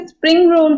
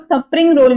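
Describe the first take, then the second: First: Said in the usual way. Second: Extra vowel after the s in स्प्रिंग, "suh-pring"; mispronounced स्प्रिंग roll. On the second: Retold or imitated. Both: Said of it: "लोग स्प्रिंग roll भी बोलते हैं".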